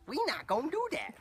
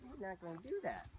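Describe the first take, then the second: First: Very high, loud mock scolding; playful loud refusal. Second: High, soft telling-off; high-pitched refusal. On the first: Trainer to a balking horse, squealed mock scolding. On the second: Real, not acted. Trainer to a balking horse, high-pitched refusal. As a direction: tell the horse no in a raised pitch.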